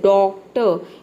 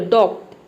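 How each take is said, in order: First: The word ends in a short vowel sound. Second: The word stops abruptly on a bare t. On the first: The speaker calls it right. "आपको बोलना है डॉक्टर, इस तरह से" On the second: The speaker calls it wrong. "आप ये ना बोले डॉक्ट"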